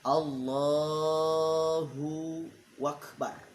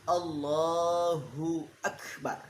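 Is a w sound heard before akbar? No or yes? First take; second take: yes; no. First: A w sound is added before akbar. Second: No w sound comes before akbar. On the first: The speaker calls it wrong. "Ada wakbar" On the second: The speaker calls it right. "yang benar"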